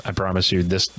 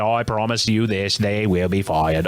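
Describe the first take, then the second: First: Said in the usual way. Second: Put-on Kennedy accent, slowing toward the end; mock Kennedy accent. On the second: Host promises listeners the writers will be fired, mock Kennedy accent. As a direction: make a solemn vow in a put-on Kennedy accent. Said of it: "this is my Kennedy accent".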